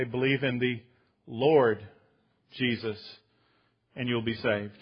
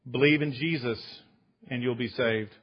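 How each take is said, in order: First: "Believe in the Lord Jesus" slow, with pauses around Lord; stress on Lord. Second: Said in the usual way. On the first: Shown as a demonstration. Preacher correcting his congregation, pausing on "Lord". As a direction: set apart "Lord" with a pause before and after. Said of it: "They say". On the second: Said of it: "they don't say that".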